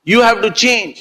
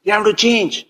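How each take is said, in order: First: "you" पर ज़ोर, थोड़ा ऊँचा; "you" को उभारें; stress on you. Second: Change पर हल्का ज़ोर, गिरती धुन; "change" को दबाकर बोलें; stress on change. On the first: ("you" शब्द पर ज़ोर) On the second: ("change" शब्द पर ज़ोर) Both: Shown as a demonstration. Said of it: "repeated for emphasis".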